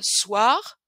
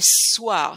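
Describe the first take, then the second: First: The s sound at the start is short. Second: The s sound at the start is long. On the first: The speaker calls it wrong. "Je prononce pas soir" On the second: The speaker calls it right. "mais soir. C'est comme s'il y avait deux, deux sons"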